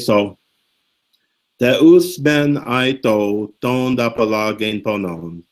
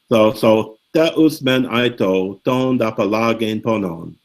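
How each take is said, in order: First: It is read with dramatic, heartfelt feeling. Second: It is read plainly, without dramatic feeling.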